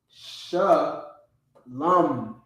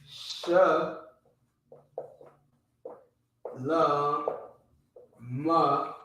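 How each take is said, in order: First: It ends on the m, with no final vowel. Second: It ends with an ah vowel after the m. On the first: "It becomes lam" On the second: "and then you just drop the uh, you drop the ah sound at the end"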